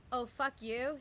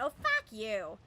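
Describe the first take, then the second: First: Said in the usual way. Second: Put-on Oh, fuck you in a loud, full Boston accent. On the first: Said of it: "instead of saying". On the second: Friend cut off in traffic swearing, Boston accent. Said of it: "full Boston accent".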